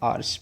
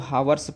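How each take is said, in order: First: The word starts with a vowel sound. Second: The word starts with an h sound. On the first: The speaker calls it right. "इसको आप क्या पढ़ेंगे? आर्स पढ़ेंगे।" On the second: The speaker calls it wrong. "अगर आप इसको हावर्स पढ़े तो ये आपका क्या है? गलत है।"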